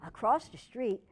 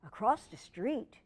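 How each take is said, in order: Both takes have the same delivery.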